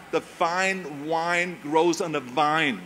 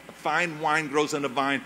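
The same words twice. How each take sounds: First: "The fine wine grows on a vine" spoken very slowly, each f, w and v shaped with care; slow accent drill. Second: Said in the usual way. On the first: Shown as a demonstration. Arnold practising his accent-removal drill, slow and careful. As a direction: drill the F, W and V sounds deliberately. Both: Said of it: "the Germans always had difficulties with the F and the W and the V".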